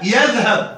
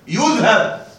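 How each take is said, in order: First: The first syllable has the vowel a. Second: The first syllable has the vowel u. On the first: The speaker calls it right. "والياء عليها فتحة، ياء يذهب" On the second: The speaker calls it wrong. "وليس ضمة، يذهب"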